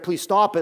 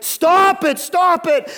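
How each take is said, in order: First: Said in the usual way. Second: Loud, high "Stop it" shouted twice; stopping the crowd with a high loud yell; shouted command. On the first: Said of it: "It's not gonna suffice to say". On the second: Shown as a demonstration. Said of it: "It's like, like".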